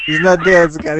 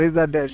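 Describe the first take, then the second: First: Loud, high, punched on dead; mock outrage. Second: Said in the usual way. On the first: Cutting off his cohost to defend Mister Rogers, loud mock outrage. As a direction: cry it out in fake indignation.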